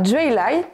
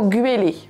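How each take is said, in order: First: Groix pronunciation, starting with a palatalized dj sound. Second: Standard KLT pronunciation, starting with a hard g. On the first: "Agrois, on dira" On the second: "en K L T standard, on entendra plutôt"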